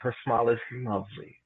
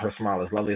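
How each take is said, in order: First: The phrase is said in a warm, expressive way. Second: The phrase is said in a flat, plain way. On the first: The speaker calls it right. "you make the word sound like the word that it is" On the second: The speaker calls it wrong. "not her smile is lovely"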